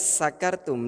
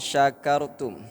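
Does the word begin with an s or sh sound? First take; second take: s; sh. First: The word begins with a plain s sound. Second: The word begins with a sh sound. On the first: You are drunk. The speaker calls it wrong. "huruf sya ini dibaca dengan huruf sa" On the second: You give thanks. The speaker calls it right. "huruf sya ini ini harus dibaca sebagaimana mestinya"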